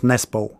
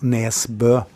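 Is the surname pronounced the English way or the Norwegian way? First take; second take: English; Norwegian. First: The surname is said with an English pronunciation. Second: The surname is said with a Norwegian pronunciation. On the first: "In England, it's normally just Nesbo" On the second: "I'm going to pronounce it for you"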